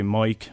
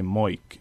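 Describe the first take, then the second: First: The oi-like vowel in mic is milder. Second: The oi-like vowel in mic is much stronger. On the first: This is how the current adult generation says it. "I would say moik" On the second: This is how the youngest generation says it. "kids who are coming up through elementary school today say it even stronger"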